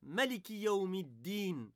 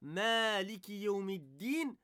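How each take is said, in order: First: The first vowel of Maliki is short. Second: The first vowel of Maliki is long. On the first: "on n'allonge pas le A" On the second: "au lieu de dire"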